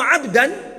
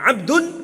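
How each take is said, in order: First: The word ends in the vowel a. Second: The word ends in the vowel u. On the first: He is the one receiving the action. "Kalau Abdan pakai fathah" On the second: He is the one doing the action. "kalau Abdun itu berarti dia pelakunya"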